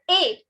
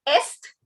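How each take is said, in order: First: It is said as a single ay vowel. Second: The final s and t sounds are pronounced. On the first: The speaker calls it right. "it is A" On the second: The speaker calls it wrong. "This S T is silent, so it is not est"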